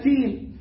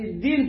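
First: The word begins with a t sound. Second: The word begins with a d sound. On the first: The speaker calls it wrong. "والدال تبقى تاء" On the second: The speaker calls it right. "والدال تبقى تاء"

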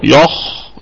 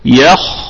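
First: The ya sound is thick and heavy. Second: The ya sound is thin and light. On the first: The speaker calls it wrong. "ما قلتش" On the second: The speaker calls it right. "ونراعي كمان ترقيق الياء"

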